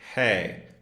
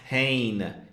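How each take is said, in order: First: The word ends in a nasalized vowel. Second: The word ends with a full N consonant. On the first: The speaker calls it right. "it's pronounced hey" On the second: The speaker calls it wrong. "it's not pronounced hain"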